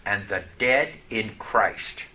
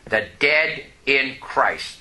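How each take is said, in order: First: The dead in Christ, slow and low, leaning on dead; softly weighted reading of scripture; slow emphatic phrase. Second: The dead in Christ, even slower, stress on dead; quiet slow echo for the congregation; slow repeat. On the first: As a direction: draw out dead, low and quiet. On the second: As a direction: repeat it slowly, pressing dead. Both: Shown as a demonstration. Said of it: "Here you go now".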